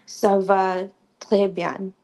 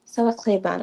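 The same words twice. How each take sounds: First: "Ça va très bien" spoken slowly, each word clearly separated; slow it down so learners hear "très"; slow demo. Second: Said in the usual way. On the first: Shown as a demonstration. Teaching a class, a slow clear model phrase. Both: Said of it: "So it's T R E S".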